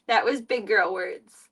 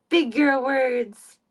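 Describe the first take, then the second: First: Said in the usual way. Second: Slow praise. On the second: Shown as a demonstration. Praising cat slowly.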